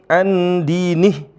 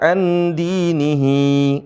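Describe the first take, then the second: First: The word ends on the h, without a final vowel. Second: The word ends with an added final i vowel. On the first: The speaker calls it right. "kalau kita berhenti andinih" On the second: The speaker calls it wrong. "bukan dibaca andinihi, enggak"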